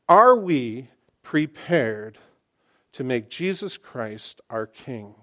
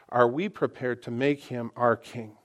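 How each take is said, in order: First: It is said slowly. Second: It is said at normal speed.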